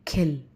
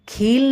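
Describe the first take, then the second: First: The vowel is said short. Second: The vowel is said long. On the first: The speaker calls it right. "कम लंबा" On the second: The speaker calls it wrong. "खील नहीं कहेंगे"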